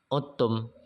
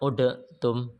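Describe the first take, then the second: First: The d merges fully into a doubled t. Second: The d is sounded separately before the t. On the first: The speaker calls it right. "tapi dibaca uttum. Dalnya masuk ke ta" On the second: The speaker calls it wrong. "Jadi tidak dibaca udatum"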